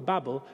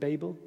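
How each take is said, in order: First: The word sounds like 'babble'. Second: The first vowel sounds like 'bay'. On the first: "I'm going for Babel because then we get the joke" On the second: "you may pronounce it Babel"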